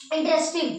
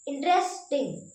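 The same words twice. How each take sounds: First: Said in the usual way. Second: interesting slowly split, held at the S then टिंग; pause before टिंग. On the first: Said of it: "टिंग पे आप थोड़ा रुकना है". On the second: Shown as a demonstration. Teacher shows where the word breaks, pausing before टिंग in interesting. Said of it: "एस पे रुक रहे हैं".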